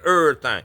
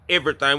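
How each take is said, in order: First: The word is clipped in Southern slang style. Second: The word is said in full.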